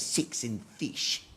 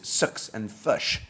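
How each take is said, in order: First: The words are said with an Australian accent. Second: The words are said with a New Zealand accent. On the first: "And the Australians say" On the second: "If you're speaking to a New Zealander, he says"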